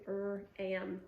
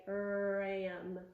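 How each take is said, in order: First: "R-am" split with a gap after the R; segmented word. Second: "Ram" run together from a long R; blended word. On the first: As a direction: say "R-am" as R, pause, "am". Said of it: "segment it to". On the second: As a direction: blend "Ram" with no break after the R. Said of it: "blend the sounds back together". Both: Shown as a demonstration.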